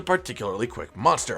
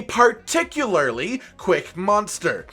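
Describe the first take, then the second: First: Said in the usual way. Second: "particularly" stretched slowly, syllable by syllable; pointed emphasis. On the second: Shown as a demonstration. Host warning about Nargacuga, "particularly" drawn out with heavy stress. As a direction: spell out "particularly quick monster" slowly, leaning on "particularly". Same words repeated for emphasis.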